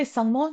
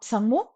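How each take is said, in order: First: Said in the usual way. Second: Sangmo opened with a P sound, "psangmo"; sounded prefix on Sangmo. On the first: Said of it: "Why do we say Sangmo". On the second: Shown as a demonstration. Teacher questions the wrong form, Sangmo with its prefix sounded. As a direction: put a P before the S of Sangmo. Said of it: "not Sangmo".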